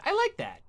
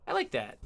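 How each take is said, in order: First: Pitched way up and playful; high squeaky voice. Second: Said in the usual way. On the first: Pretend. Repeats line in two voices.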